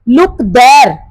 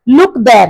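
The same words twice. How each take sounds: First: The word there carries the stress. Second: The word look carries the stress. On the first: Look in that direction, not elsewhere. "वहां देखो, यहां पे वो किसी direction की तरफ बता रहा है" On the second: Look, rather than doing some other action. "So लुक, नोट गो और डू सम अदर एक्शन"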